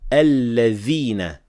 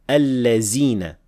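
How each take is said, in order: First: The middle consonant is a th sound. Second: The middle consonant is a z sound. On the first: The speaker calls it right. "only say alladhina with dhal" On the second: The speaker calls it wrong. "mispronounced as allazina with zay"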